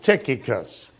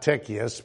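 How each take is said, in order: First: The name is said with the second k sound. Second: The name is said without the second k sound. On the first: The speaker calls it right. "How many of you caught the second key, the second C?" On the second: The speaker calls it wrong. "It's not Tychicus, which is what I called the poor guy for years"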